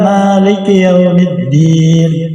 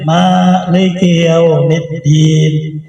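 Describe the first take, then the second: First: The first vowel of Maliki is short. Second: The first vowel of Maliki is long.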